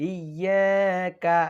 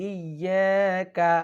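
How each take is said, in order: No difference in how they are said.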